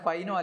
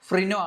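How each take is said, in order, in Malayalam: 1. ആദ്യ അക്ഷരത്തിൽ r ശബ്ദമില്ല. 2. ആദ്യ അക്ഷരത്തിൽ r ശബ്ദമുണ്ട്. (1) "ഫൈനോ അല്ല" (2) "ഫ്രിനോ ആണ്"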